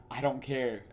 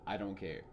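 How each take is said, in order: First: Curt, louder brush-off; dismissive quote. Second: Said in the usual way. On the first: Retold or imitated. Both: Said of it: "such a dismissive".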